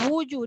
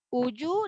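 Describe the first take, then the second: First: The word begins with a rounded w sound. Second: The word begins with a glottal stop. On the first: The speaker calls it right. "Wuju dia W U. W U bunyinya wu kan?" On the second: The speaker calls it wrong. "kalau uju dia jadi hamzah"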